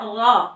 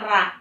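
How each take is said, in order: First: The r syllable is thick with a rounded o. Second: The r syllable is thin with an open a. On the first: The speaker calls it right. "Harus dibaca ro" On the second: The speaker calls it wrong. "jadi tidak tidak dibaca ra"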